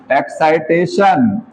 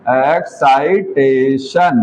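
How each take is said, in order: First: excitation said slowly and deliberately; slow emphasis. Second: excitation stretched out even slower and dropping low; drawn-out repeat. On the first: Teacher giving students the meaning of a term, slow. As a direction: lean on excitation, unhurried. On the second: Teacher repeating the key word for students, very drawn out. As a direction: let excitation trail out long and low to fix it in memory. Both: Shown as a demonstration. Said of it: "इसका meaning है कि".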